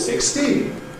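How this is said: The pitch rises, then ends in a high fall. "rising head, high fall"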